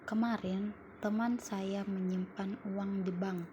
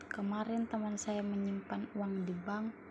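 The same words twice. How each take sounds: First: The stress falls on the word kemarin. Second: The stress falls on the word menyimpan. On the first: "Pada kalimat pertama, mendapatkan tekanan pada kemarin" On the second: "Yang keempat mendapat tekanan pada kata menyimpan"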